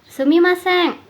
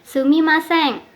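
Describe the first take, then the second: The two takes are said the same way.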